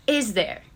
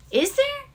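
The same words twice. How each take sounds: First: Second Is there, dropped and pointed; falling question. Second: High rising Is there; Is there pushed up high in doubt; rising question. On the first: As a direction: settle Is there down with a firm fall. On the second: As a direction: ask Is there with a sharp upward lift. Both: Shown as a demonstration. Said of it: "And ask yourself".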